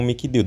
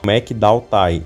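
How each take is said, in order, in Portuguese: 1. O nome é falado como Mikdild. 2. O nome é falado como McDowtai. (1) "pronunciado aqui no Brasil como Mikdild" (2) "lá no idioma original ele é pronunciado como McDowtai"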